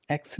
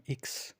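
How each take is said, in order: First: Said in the usual way. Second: इक्स said softly as German iks; teacher contrasting English X with German इक्स. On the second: Shown as a demonstration. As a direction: give इक्स with a short i, not English ex. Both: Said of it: "एक्स नहीं है".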